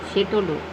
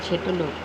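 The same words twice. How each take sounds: Both takes have the same delivery.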